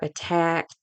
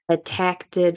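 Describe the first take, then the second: First: The word ends with a plain t sound. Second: An extra t sound comes before the ending.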